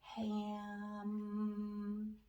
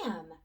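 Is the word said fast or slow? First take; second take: slow; fast. First: The word is drawn out slowly, sounds sliding. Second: The word is said quickly as one unit. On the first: "Now let's slide and say it slow" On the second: "Let's say it fast"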